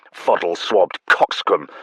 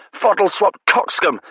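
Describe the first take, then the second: First: Said in the usual way. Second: High, loud, relishing the words; gleeful repeat. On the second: Acted. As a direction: bellow it back happily. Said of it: "delighted relish".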